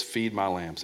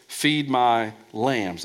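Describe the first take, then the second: First: Feed said with weight, rest soft; Feed stressed, my lambs softer. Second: Slow, lambs drawn out and stressed; slow Feed my lambs with weight on lambs. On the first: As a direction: lean on the word Feed. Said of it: "Emphasis on feed". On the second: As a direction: dwell on the word lambs. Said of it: "Emphasis on lambs". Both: Shown as a demonstration.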